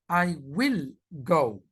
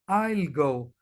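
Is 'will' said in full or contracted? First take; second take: full; contracted. First: Will is said in full, with focus. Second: Will is contracted to I'll, unstressed.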